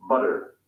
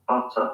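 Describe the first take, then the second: First: American English, tap the t in "butter". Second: "butter" with a hard t and no r; British English, crisp t in "butter". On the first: Teacher contrasting US and UK butter. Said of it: "people say". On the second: Teacher contrasting UK with US butter. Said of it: "In the U K, they say". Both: Shown as a demonstration.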